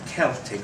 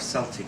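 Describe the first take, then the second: First: The word is said the usual way. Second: The word is said the Scottish way.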